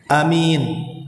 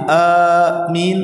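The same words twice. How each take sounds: First: The first vowel is short, the second long. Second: The first vowel is drawn out long. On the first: "memendekkan alif dan juga memanjangkan mim" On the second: "dengan memanjangkan alif"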